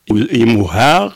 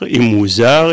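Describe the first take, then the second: First: The middle consonant is an h sound. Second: The middle consonant is a z sound. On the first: This is the form used in Niger and Mali. "ils utilisent la lettre H" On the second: This is the form used in the speaker's own region. "on utilise le mot le Z"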